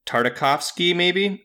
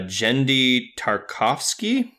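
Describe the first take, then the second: First: Tartakovsky in full, "Tar-ta-KOF-skee", rising; second-guessed pronunciation. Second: Tartakovsky shortened to "Tar-kofsky", rising; tentative name pronunciation. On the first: Correcting the creator's name, Tartakovsky unsure as "Tar-ta-kofsky". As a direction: sound out every syllable of "Tartakovsky", questioningly. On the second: Guessing the show creator's name, Tartakovsky unsure as "Tar-kofsky". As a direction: try "Tartakovsky" slowly as "Tar-KOF-skee". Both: Shown as a demonstration. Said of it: "I think you pronounce his name".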